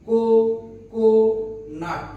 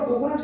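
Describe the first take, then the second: First: কো, কো, নাট in three beats with clear pauses; syllable by syllable. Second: Said in the usual way. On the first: Shown as a demonstration. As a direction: break it apart as কো, pause, কো, pause, নাট. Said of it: "কয় ধাপে বা কয় ঝোঁক উচ্চারণ করলাম". (কো, কো, নাট থেমে থেমে তিন ধাপে)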